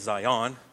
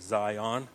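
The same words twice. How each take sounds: First: The stress is on the second syllable. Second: The stress is on the first syllable. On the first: The speaker calls it wrong. "We don't say Zion" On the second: The speaker calls it right. "Zion is accented on the first part"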